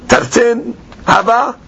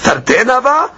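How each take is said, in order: First: It is said as a plain flat statement. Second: It is said as an astonished question. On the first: It really was only two. "It is two" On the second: It was surely not only two. "Bitmiyah, the Gemara is asking a question. So you read it like this"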